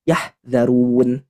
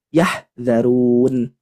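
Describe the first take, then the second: No difference in how they are said.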